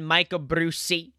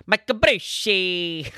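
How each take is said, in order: First: Said in the usual way. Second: Hype announcer call. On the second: Acted. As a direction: call the name like a ring announcer. Hyped repeat of guest's name.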